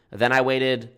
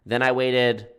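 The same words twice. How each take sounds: The two takes are said the same way.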